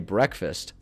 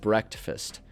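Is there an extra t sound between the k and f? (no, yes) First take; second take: no; yes. First: The k goes straight into the f. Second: An extra t sound comes between k and f. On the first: "I didn't say breakfast" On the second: "I would add in extra consonants"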